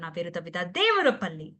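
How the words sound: The stress is on the second name. The speaker calls it right. "రెండవ name"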